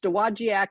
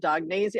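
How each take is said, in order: First: The name is said like 'doe-wah-jack'. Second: The name is said like 'dog-nay-zha'. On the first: The speaker calls it right. "So it's Dowagiac is the town" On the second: The speaker calls it wrong. "I could not pronounce the name. I was calling it Dognasia"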